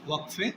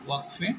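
No difference in how they are said.

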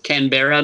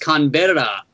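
First: The R is a plain English R. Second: The R is rolled like a Spanish R. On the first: The speaker calls it right. "but it's Canberra" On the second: The speaker calls it wrong. "I rolled the R like it's a Spanish Canberra"

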